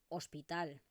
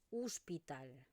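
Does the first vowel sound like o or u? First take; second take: o; u. First: The first vowel sounds like o. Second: The first vowel sounds like u. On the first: This is the western Catalan pronunciation. "En el catalá occidental se va a pronunciar tal como se escribe" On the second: This is the eastern Catalan pronunciation. "lo que yo pronuncio es una U"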